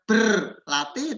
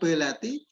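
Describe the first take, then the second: First: The r in the first syllable is pronounced. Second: The r in the first syllable is dropped. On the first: The speaker calls it right. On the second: The speaker calls it wrong.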